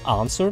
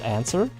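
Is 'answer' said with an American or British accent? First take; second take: British; American. First: It is said with a British pronunciation. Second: It is said with an American pronunciation. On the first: The speaker calls it right. "I say answer" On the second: The speaker calls it wrong. "not answer"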